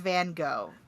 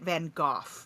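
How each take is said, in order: First: The name is said in the commonly accepted way. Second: The name is said in an English accent. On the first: This is the generally accepted pronunciation. "It is accepted as Van Gogh" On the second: This is how English people say it. "the English say it Van Gogh"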